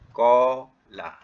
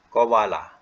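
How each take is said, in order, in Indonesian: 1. Bunyi a panjang menggantikan bunyi w. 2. Bunyi w terdengar di antara suku kata. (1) "wa tu ditukar jadi alif" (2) "kalau kita nak hidupkan waw sebenar, bunyi dia begini"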